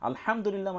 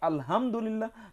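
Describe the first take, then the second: First: The h is a strong, throaty, breathy sound. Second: The h is a light, plain sound. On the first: All praise belongs to God. The speaker calls it right. "সেই হা যদি হয় আলহামদুলিল্লাহ মানে সকল প্রশংসা আল্লাহর জন্য" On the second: Torn old clothes belong to God. The speaker calls it wrong. "আমরা সেটা যদি না বলি"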